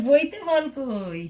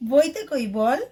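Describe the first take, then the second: First: Each word drawn out very slowly; slow teaching question. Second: Said in the usual way. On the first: Shown as a demonstration. Mother quizzing her small son from his book, very slow. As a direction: spell the question out slowly for a toddler.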